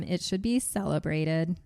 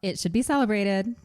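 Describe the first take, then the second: First: Flat robotic reading. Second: Livelier reread, rising end; less robotic. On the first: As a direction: read it like a machine. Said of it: "You read that like a robot". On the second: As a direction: read it like a person. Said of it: "That sounds less robotic". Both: Shown as a demonstration.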